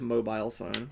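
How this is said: Mobile is said with a British pronunciation. The speaker calls it right. "That's not how we say it in the U K. Usually it's mobile phone"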